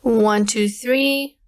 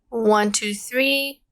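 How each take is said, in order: First: No hiss, and the voice sounds clean and undistorted. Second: No hiss, but the voice sounds distorted and robotic. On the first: The speaker calls it right. "mid is the best one for this case" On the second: The speaker calls it wrong. "my voice is a little bit distorted. I almost sound like a robot"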